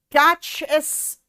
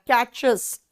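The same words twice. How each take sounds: First: कैच एस, very slow, the S tacked on with a break; failed plural demo. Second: कैचेस said smoothly as one word, "chez" ending; correct plural demo. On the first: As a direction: stretch कैच एस out with a gap before एस. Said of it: "मुंह से नहीं निकल रहा". (कैच एस को धीरे-धीरे, बीच में रुककर) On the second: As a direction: say कैचेस cleanly with the ईएस sound. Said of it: "कैचेस निकल जा रहा है". (कैचेस, साफ़ ईएस के साथ) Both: Shown as a demonstration.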